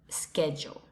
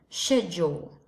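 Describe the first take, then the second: First: It is said in an American English accent. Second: It is said in a British English accent. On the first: "And in American English, schedule" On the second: "In British English is schedule"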